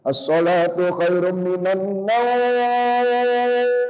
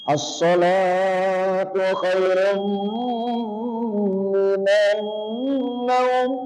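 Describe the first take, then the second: First: The word naum is drawn out long. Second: The word salatu is drawn out long.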